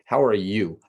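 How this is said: The word 'you' is stressed.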